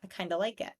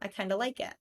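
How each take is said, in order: First: 'Kind of' is reduced to 'kinda' with a schwa. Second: 'Kind of' is reduced to 'kinda' with a schwa.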